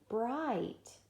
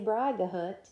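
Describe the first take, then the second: First: The G and H are silent. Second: The G and H are sounded aloud. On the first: The speaker calls it right. "G H, it means long I" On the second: The speaker calls it wrong. "we wouldn't say Brigahut"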